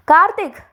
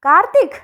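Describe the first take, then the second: First: Shouted high call with a falling end; loud call. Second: Shouted high call ending on a rise; loud call. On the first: Father bellowing for his son upstairs, loud falling call. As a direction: yell the name down to a falling close. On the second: Father calling his son again, loud rising call. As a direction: call the name out, lifting at the end. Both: Acted.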